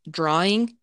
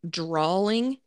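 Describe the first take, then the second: First: The word is said with no L sound. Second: The word is said with an added L sound. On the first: The speaker calls it right. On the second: The speaker calls it wrong.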